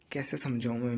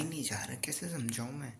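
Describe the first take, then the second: First: Said in the usual way. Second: "कैसे समझाऊँ मैं" whispered, voiceless and soft; exasperated whisper. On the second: Real, not acted. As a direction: sigh it out as a whisper. Tired late-night study complaint.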